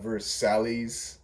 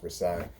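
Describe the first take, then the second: First: It is sounded out letter by letter, as spelled. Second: It is said in its usual, not-as-spelled way. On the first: The speaker calls it wrong. "It's spelt like uh, Versailles. That's how I pronounced it for the longest time" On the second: The speaker calls it right. "until I realized it was pronounced Versailles"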